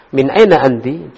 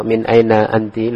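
First: MIN AINA ANTI as a question, pitch peaking on AINA; question intonation. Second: MIN AINA ANTI level, like a statement; statement intonation. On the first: Teacher models asking where you're from, questioning intonation on "Min aina anti". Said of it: "intonasinya harus pas". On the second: Teacher shows students the mistake, "Min aina anti" as a statement. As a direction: say "Min aina anti" slowly and evenly, without questioning. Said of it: "Loh, ini khobar ya". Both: Shown as a demonstration.

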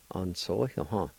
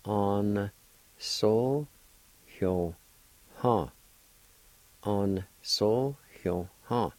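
First: Said in the usual way. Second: Sounded out slowly, syllable by syllable; slow teaching pronunciation; slow careful pronunciation. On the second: Shown as a demonstration. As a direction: stretch each syllable so learners can follow. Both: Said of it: "with the first A like this".

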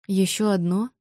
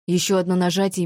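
First: Mildly confused, rising at the end; bewildered echo question. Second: Said in the usual way. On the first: A narrator's reading. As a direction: ask it back, a little lost. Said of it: "растерянно переспросила я". (растерянный переспрос)

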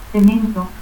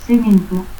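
First: Said in the usual way. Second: Cemento as "sementu"; S for C and final u in Cemento; seseo. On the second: Shown as a demonstration.

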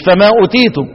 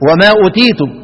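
First: "فما أوتيتم" begun with fa instead of wa; wrong wording. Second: "وما أوتيتم" begun with a clear wa; correct wording. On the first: Teacher showing students the slip to avoid, wrong wording. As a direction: say "فما أوتيتم" opening on ف, as the mistake. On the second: Teacher cautioning students on the verse's first letter, correct wording. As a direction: say "وما أوتيتم" opening on و, not ف. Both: Shown as a demonstration. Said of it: "مش فما أوتيتم".

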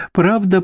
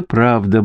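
First: Much higher, urgent "Правда"; "Правда" pitched up high and pressing; insistent first take. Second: Said in the usual way. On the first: A narrator's reading. Grandmother pleading with the lawyer, high and insistent.

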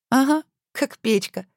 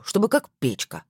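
First: Mocking echo, high and slow; ироничный смешок. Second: Said in the usual way. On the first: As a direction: tease him, echo his words slowly. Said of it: "Александра хихикнула". (насмешливо, протяжно)

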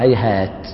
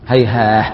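First: هيهات ending on a clear stopped t; quiet demo of هيهات with final t; stopping on ta. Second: هيهاه ending in a soft breathy h instead of t; low quiet demo of هيهاه with final h; stopping on ha. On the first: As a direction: finish هيهات with a crisp t. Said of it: "يقف بالتاء المفتوحة". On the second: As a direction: close هيهاه on a gentle h sound. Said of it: "يقف بالهاء". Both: Shown as a demonstration.

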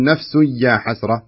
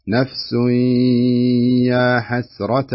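First: نفس يا حسرة said quickly without holding the nasal; rushed, no ghunna. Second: نفس يا held two counts with nasal ghunna. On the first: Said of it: "ما تقول". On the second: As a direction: stretch the nasal in نفس يا حسرة slowly. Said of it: "هذا إدغام بغنة". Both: Shown as a demonstration.

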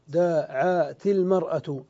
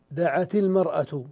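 First: Slow and deliberate, the kasra on the ta linking into المرأة; slow demonstration. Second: Said in the usual way. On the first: Shown as a demonstration. Teacher showing students how the ta takes a kasra, said slowly. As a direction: spell out دعت المرأة slowly so the joining vowel is heard. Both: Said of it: "فكسرنا التاء".

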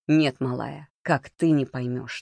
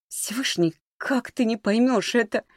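First: Turning words back. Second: High-pitched, frustrated appeal; exasperated plea. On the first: Володя turning Маришка's words back, controlled retort. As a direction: throw the question back evenly. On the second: Маришка to disbelieving Володя, exasperated. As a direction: plead with pitch jumping up. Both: A narrator's reading.

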